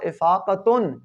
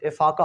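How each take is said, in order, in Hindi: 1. शब्द का अंत पूरी 'tun' आवाज़ से होता है। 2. शब्द का अंत साधारण 'a' आवाज़ से होता है। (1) "असल में था इफ़ाक़तुन" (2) "वक़्फ़ की सूरत में इफ़ाक़ा हो गया"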